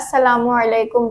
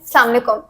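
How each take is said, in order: First: Every syllable of the greeting is fully pronounced. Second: The greeting is shortened, with syllables run together. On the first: The speaker calls it right. "मैं अस्सलामुअलैकुम बोलती हूँ" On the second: The speaker calls it wrong. "लोग कहते हैं अस्सलाम वालेकुम, ऐसे नहीं बोलते"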